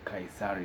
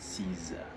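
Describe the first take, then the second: First: The name is said with a local pronunciation. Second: The name is said with a standard English pronunciation. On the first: The speaker calls it wrong. "Caesar is how we pronounce it locally" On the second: The speaker calls it right. "in English you should pronounce it as Caesar"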